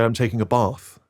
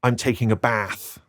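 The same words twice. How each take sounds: First: "bath" with a long ah, like "bahth"; posh "bath". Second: "bath" with a short flat a, as in cat; West Country "bath". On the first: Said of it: "posh English people would say". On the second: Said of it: "in the West Country". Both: Shown as a demonstration.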